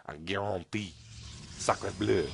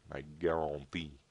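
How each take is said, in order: First: Hammed-up French accent. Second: A slow, hammed-up French accent; mock French, drawn out. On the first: Caster jokes to viewers in mock French accent. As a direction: lay the French on thick. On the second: Caster jokes in a French accent. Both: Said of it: "I was doing the French accent".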